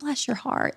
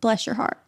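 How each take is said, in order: First: It is said sweetly, with sincere warmth. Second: It is said in a mocking, insulting way.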